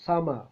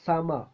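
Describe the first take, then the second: No difference in how they are said.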